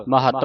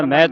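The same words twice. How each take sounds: First: ਮਹੱਤ in two syllables, ma-hatt; short a after the ਹ in ਮਹੱਤ; correct reading. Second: ਮਹਿਤ run together as met; misreading. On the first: Teacher giving the correct reading, ਮਹੱਤ as ma-hatt. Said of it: "ਮਹੱਤ ਪੜ੍ਹਨਾ". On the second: Teacher showing what not to read, ਮਹਿਤ as met. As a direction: slide ਮਹਿਤ into one syllable with an e vowel. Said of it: "ਮਹਿਤ ਨਹੀਂ ਪੜ੍ਹਨਾ". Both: Shown as a demonstration.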